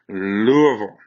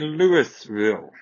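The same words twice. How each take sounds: First: The name is said as 'Loo-vul'. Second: The name is not said as 'Loo-vul'. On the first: The speaker calls it right. "It is Lou, as in I'm going to the loo. Uh, Vol" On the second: The speaker calls it wrong. "We do not say Louisville"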